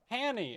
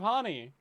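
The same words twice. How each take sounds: First: "Hanny" with a short flat a, as in hand; mispronounced name. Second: "Honey" with an open ah, like HAH-nee; correct name pronunciation. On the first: Owning up to mangling a friend's name, "Hanny" with short a. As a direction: say "Hanny" to rhyme with granny. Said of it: "a year of saying". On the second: Correcting the name learned after a year, "Honey" said HAH-nee. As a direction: give "Honey" an open first vowel. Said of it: "instead of Honey". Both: Shown as a demonstration.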